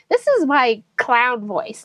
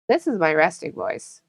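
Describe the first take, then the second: First: It is said in a higher, bubbly voice. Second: It is said in a lower, relaxed voice.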